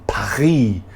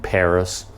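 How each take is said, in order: First: It is said with a French pronunciation. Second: It is said with an English pronunciation. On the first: "Or you go to France and you say" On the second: "instead of just saying France and Paris"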